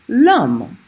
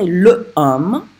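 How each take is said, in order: First: The article is elided and joined to the noun. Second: The article is said fully as a separate syllable. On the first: The speaker calls it right. "here's an example of a mute H" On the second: The speaker calls it wrong. "You don't say le homme"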